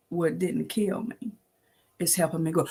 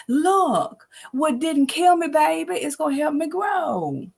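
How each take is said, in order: First: Quiet reflection. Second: Emphatic proclamation. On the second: Preaching the refrain to listeners, high and emphatic. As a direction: lift it as a declaration. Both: Real, not acted.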